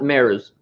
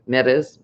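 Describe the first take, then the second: First: The r is a plain English r. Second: The r is a quick rolled tap. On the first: The speaker calls it wrong. "not Mares" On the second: The speaker calls it right. "with a little R roll there in there somewhere"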